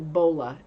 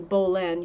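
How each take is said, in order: First: The final en ending is dropped. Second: The final en ending is fully pronounced. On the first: The speaker calls it right. "you say Bola" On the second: The speaker calls it wrong. "You don't say Bolen"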